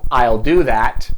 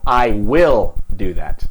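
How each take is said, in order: First: The word will is contracted to I'll. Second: The word will is said in full. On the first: It is a neutral statement of intention. "no estoy poniendo énfasis, es una oración normal" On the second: The speaker insists against someone's doubt. "para poner énfasis digo"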